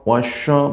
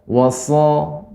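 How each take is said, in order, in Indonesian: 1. Konsonan setelah 'wa' berbunyi sh. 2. Konsonan setelah 'wa' berbunyi s. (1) "Jadi tidak wasya wasya, berbeda suaranya" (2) "Adapun shin wasya sya enggak"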